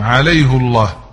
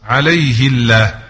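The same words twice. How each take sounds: First: عليه said as alayhu before الله; عليه الله with damma, Hafs reading; damma on the haa. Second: عليه said as alayhi before الله; عليه الله with kasra, Asbahani reading; kasra on the haa. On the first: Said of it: "حفص يقرأها بالضم". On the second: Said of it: "الأصبهاني يقرأها بالكسر". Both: Shown as a demonstration.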